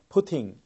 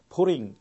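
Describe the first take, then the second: First: The middle t is a clear crisp t. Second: The middle t is a soft flapped r-like sound. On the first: "영국식에서는 ... T는 정확하게 발음이 됩니다" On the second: "미국식에서는 PUTTING의 T를 R, 리을 받침이죠. 그것과 비슷하게 굴려서 발음합니다"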